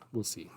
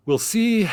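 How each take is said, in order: First: Said in the usual way. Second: Much higher and louder, mock-sing it; high mock echo. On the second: [name] teasing himself about his theory, high and loud.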